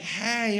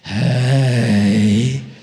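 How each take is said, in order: First: It is a plain, casual greeting. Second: It is a flirtatious, suggestive greeting.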